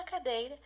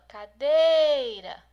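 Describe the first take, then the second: First: Said in the usual way. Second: Loud "cadeira", held long on DEI; calling out. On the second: Shown as a demonstration. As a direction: call "cadeira" as if it were someone far away. (chamando alto "cadeira", esticando o DEI) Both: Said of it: "Você tá chamando a cadeira".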